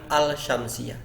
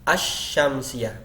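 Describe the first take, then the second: First: The l is pronounced before the sh sound. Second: The l merges into the following sh sound. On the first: The speaker calls it wrong. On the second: The speaker calls it right.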